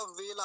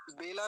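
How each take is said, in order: First: वेला begun with a v, as vay-la; correct v sound. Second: बेला begun with a b, as bay-la; wrong b sound. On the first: Teacher giving students the correct word, clear v. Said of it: "वेला होता है". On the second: Teacher correcting a common mistake, b in place of v. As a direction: say बेला with lips closed on b. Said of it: "बेला नहीं होता". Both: Shown as a demonstration.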